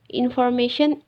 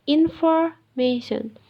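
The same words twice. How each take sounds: First: Said in the usual way. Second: "information" slowly, broken before MA; syllable emphasis. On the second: Shown as a demonstration. Teacher giving loudness example, "information" slow and broken up. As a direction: draw out "infor-mation" with a break.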